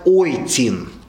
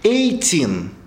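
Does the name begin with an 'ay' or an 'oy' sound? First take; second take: oy; ay. First: The name begins with an 'oy' sound. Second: The name begins with an 'ay' sound. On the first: This is the correct German reading. The speaker calls it right. "грамотно по-немецки прочитать «Ойтин»" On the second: This follows the usual Russian spelling. The speaker calls it wrong. "обычно по-русски пишут «Эйтин»"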